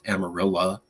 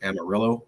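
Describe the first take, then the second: First: The name ends with an 'ah' sound. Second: The name ends with an 'oh' sound.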